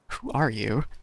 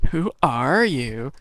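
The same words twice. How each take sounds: First: It is said in a plain voice. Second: It is said in an obnoxious mocking voice.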